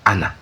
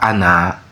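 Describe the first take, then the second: First: The final vowel is kept short. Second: The final vowel is drawn out long. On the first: The speaker calls it right. "sans allongement" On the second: The speaker calls it wrong. "Pas ana"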